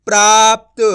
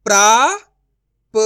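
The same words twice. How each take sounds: First: प्राप्त joined as "praapt", loud; blended whole word. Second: प्राप्त broken as "praa... pa... ta", long pauses, loud; syllable by syllable. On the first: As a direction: read प्राप्त in one go without a break. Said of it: "तो मिलके बन जाएगा". (प्राप्त को जोड़कर ज़ोर से एक साथ बोलें) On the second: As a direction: sound out प्राप्त very slowly in three parts. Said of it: "direct मात्रा का उच्चारण करके पढ़ेंगे". (प्राप्त को "प्रा... प... त" तोड़कर धीरे बोलें) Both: Shown as a demonstration.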